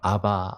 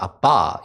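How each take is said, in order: First: The word is said plainly without extra force. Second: The word is said with a forceful accent.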